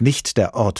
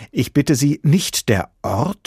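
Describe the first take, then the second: First: Professor's firm statement, "nicht der Ort" falling; matter-of-fact correction from an examiner; firm reprimand. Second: High, louder, incredulous question; zealot's scandalized question; wide-eyed disbelief. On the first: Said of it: "unterbrach ihn der prüfende Professor". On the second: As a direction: ask "nicht der Ort?" slowly, astounded, rising at the end. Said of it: "fragte der Prüfling mit weit aufgerissenen Augen". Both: A narrator's reading.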